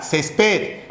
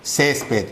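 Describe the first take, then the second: First: "Césped" misread as ces-PED, stress on the last syllable; wrong final stress. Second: "Césped" said CÉS-ped, falling after the first syllable; stress on first syllable. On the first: Teacher reads "Césped" without its accent mark, stressed ces-PED. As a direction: lean on ped in "Césped", pitch rising. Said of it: "¿Qué dice acá?". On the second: Teacher reads "Césped" with its accent mark, stressed CÉS-ped. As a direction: hit Cés in "Césped", let ped drop. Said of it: "Pero si lo tildo, ¿qué dice?". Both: Shown as a demonstration.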